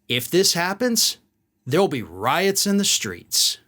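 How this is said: It is said in a hard, menacing tone. This is a threat. "The second was a threat"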